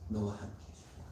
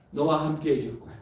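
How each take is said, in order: First: "너와 함께 해줄 거야" whispered tenderly, the stress on "너와"; whispered promise. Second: Said in the usual way. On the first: Acted. God comforting the weak believer, in a whisper. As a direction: breathe "너와 함께 해줄 거야" softly like a secret. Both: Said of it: "따뜻한 위로를 주신".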